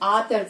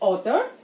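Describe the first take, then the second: First: The first vowel is an open, unrounded 'aa'. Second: The first vowel is a rounded 'aw' sound. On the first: The speaker calls it wrong. "ఆథర్ కాదు" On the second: The speaker calls it right. "It's ఆథర్"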